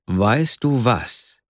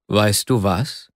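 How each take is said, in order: First: "Weißt du was" very slowly, falling at the end; drawn-out "du", then let it drop; falling lead-in. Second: "Weißt du was" slowly, rising on "du"; slow, tentative lift on "du"; rising question. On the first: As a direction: stretch "Weißt du was" into a deliberate announcement. Proposal repeated after impatient reply. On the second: Hesitant proposal, first take. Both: Acted.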